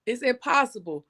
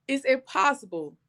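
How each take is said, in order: Both takes have the same delivery.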